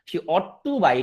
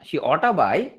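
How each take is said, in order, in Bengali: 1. 'ought to'-এর দুটো শব্দই আলাদা করে বলা হয়। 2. 'Ought to' সংক্ষেপ হয়ে একটি শব্দ হয়ে যায়, 'oughta'।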